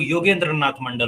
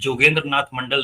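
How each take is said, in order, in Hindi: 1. नाम की शुरुआत Y ध्वनि से होती है। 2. नाम की शुरुआत J ध्वनि से होती है। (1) "सही नाम तो योगेंद्र नाथ मंडल होगा" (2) "जोगेंद्र नाथ मंडल नहीं होता है"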